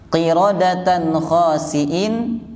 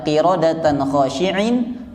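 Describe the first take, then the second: First: The second word has a plain s sound. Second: The second word has an sh sound. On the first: Apes that are despised. The speaker calls it right. "kera yang hina" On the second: Apes that are humble and devout. The speaker calls it wrong. "Kalau dibaca qiradatan khashi'in, kera yang khusyuk"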